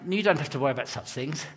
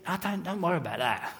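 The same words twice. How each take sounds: First: Put-on quick, softer, posher English accent. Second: Quick, softer Cockney brush-off; Cockney accent. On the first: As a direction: imitate a posher friend from outside London. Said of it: "'Cause he's posher than me". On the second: Retold or imitated. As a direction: wave it away in a broad Cockney accent. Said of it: "he didn't say it with a Cockney accent".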